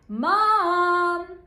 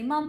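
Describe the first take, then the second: First: It is called out loudly. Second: It is said at a quiet, normal level.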